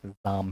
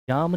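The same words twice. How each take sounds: First: The word begins with a z sound. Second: The word begins with a j sound. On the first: The speaker calls it right. "जाम है" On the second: The speaker calls it wrong. "जाम नहीं है"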